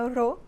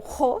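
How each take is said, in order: First: The R is a soft, light tap. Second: The R is a strong, harsh sound. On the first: This is a single R in the middle of a word. "ficaria ro" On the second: This is a double R in the middle of a word. "se tivessem dois R's no meio da palavra"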